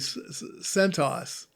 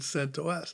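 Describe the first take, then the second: First: The name is said as one whole word. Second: The ending is said as separate letters. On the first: "you didn't pronounce it as a word. You didn't say CentOS" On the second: "you said you said CentOS"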